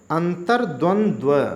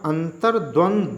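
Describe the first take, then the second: First: The word ends with 'dvandv', the v repeated. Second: The word ends with a single plain 'dvand'. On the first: The speaker calls it right. "शुद्ध में पढ़ रहा हूँ" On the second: The speaker calls it wrong. "पहले में पढ़ रहा हूँ"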